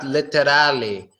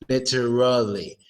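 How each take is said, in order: First: The R is made with the tongue raised, sounding blurred. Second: The R is made with the tongue down, sounding clear. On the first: The speaker calls it wrong. "Not literally" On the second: The speaker calls it right. "Your tongue is down on the R sound"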